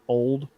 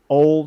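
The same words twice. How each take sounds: First: The word ends with a d sound. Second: The word ends without a d sound. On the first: The speaker calls it wrong. "not old" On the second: The speaker calls it right. "There was no duh sound"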